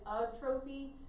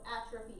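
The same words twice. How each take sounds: First: The word is said the way it looks written. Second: The word is said with its standard pronunciation. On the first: The speaker calls it wrong. "I know it looks like atrophy" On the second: The speaker calls it right. "atrophy is how we say it though"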